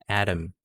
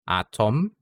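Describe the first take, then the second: First: The middle T is a quick tongue flap. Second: The middle T is a clear, full T. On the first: It sounds more native or American. "Using a, uh, a flap sound" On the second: It sounds less native or American. "when I use a normal T sound for these words"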